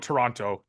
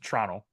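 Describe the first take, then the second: First: The second T sound is clearly pronounced. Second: The second T sound is left out. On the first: The speaker calls it wrong. "So no Toronto" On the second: The speaker calls it right. "we don't pronounce the second T"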